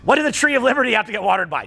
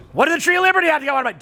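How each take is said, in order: First: Said in the usual way. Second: Higher, louder and very fast, "Liberty" hit hardest; pointed rhetorical question. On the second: Shown as a demonstration. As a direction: punch "Liberty" in a fast, raised challenge. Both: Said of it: "Don't answer".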